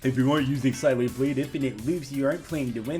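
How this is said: It is said in a put-on, mocking voice.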